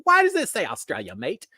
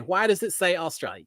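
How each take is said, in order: First: Put-on failed Australian accent. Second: Said in the usual way. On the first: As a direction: badly fake an Australian accent. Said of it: "I can't do an Australian accent". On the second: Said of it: "the speaker saying".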